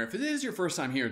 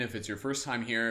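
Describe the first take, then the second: First: "is" lifted high and held; stress on IS. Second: Said in the usual way. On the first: Shown as a demonstration. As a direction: lean hard on the word "is".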